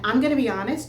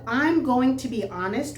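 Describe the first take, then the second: First: 'Going to' is shortened to 'gonna'. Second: Each word of 'going to' is said fully. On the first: This is everyday casual speech. "which is what I say naturally" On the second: This is the written, textbook form. "which is what you read in the book"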